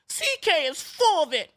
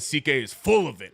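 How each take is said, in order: First: It is read in a whiny, complaining voice. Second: It is read in a plain, normal voice.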